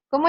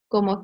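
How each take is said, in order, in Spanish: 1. La palabra se dice con acento fuerte. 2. La palabra se dice sin acento fuerte. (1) "Las preguntas llevan como un, un tono diferente" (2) "se escucha pues sin, es- sin ese acento o sin ese tono"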